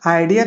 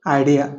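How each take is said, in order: First: Said in the usual way. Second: "आइडिया" with the final A said quickly as a schwa; quick schwa ending. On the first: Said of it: "आइडिया का हमें बोलना है". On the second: Shown as a demonstration. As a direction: say "आइडिया", passing quickly over its last vowel. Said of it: "ए को हमें जल्दी बोलना है". ("आइडिया" का आख़िरी ए जल्दी से, स्वा जैसा)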